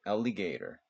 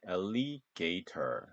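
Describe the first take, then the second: First: Alligator 보통 속도로 R 말아서; model pronunciation. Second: Alligator 아주 천천히 끊어서 발음; Alligator를 음절마다 또박또박; slow syllable demo. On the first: (자연스럽게 이어 읽는 Alligator) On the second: (천천히 끊어 읽는 Alligator) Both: Shown as a demonstration. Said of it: "alligator 요렇게 발음하면 됩니다".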